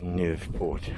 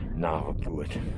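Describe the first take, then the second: First: The name begins with the sound 'new'. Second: The name begins with the sounds 'nava'. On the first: The speaker calls it right. "It's Newport" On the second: The speaker calls it wrong. "I was always saying it wrong. I was saying Navaport"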